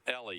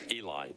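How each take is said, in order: First: The name is said like 'Ellie'. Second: The name is said like 'Eli'. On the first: The speaker calls it wrong. "I'm sorry I pronounced it Ellie" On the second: The speaker calls it right. "It's Eli"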